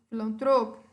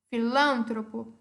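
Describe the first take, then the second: First: It is said with Portuguese word stress. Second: It is said with Spanish word stress.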